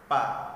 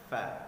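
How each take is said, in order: First: It starts with a p sound. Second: It starts with a breathy f sound. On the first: The speaker calls it wrong. "Kalau pa maka salah" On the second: The speaker calls it right. "Ujung gigi atas kita bertemu dengan bibir bagian bawah"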